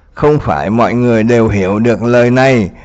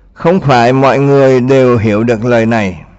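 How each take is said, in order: The two takes are said the same way.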